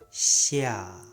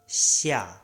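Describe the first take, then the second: First: The word is said slowly and drawn out. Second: The word is said at normal speed.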